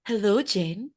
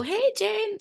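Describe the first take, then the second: First: Mock-formal phone greeting; stiff, put-on old-school hello; formal telephone voice. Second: High, breezy hello to a friend; informal, high-pitched hey; casual greeting. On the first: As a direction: greet a friend far too formally. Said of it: "I'm not going to go". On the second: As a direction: greet a friend you know is calling. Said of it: "If it's Jane, I'll go". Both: Shown as a demonstration.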